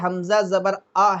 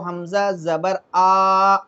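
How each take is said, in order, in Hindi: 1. अंतिम स्वर छोटा है, खींचा हुआ नहीं। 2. अंतिम स्वर खींचकर लंबा पढ़ा जाता है।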